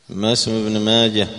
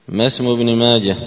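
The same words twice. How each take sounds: No difference in how they are said.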